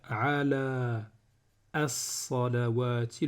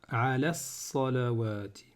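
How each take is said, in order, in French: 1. Un son 'a' supplémentaire est prononcé avant 'salawati'. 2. Le son 'a' supplémentaire avant 'salawati' est omis. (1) "au lieu de faire ala as-salawati, le son A ici là, il ne va pas se prononcer" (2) "Je vais faire ala salawati"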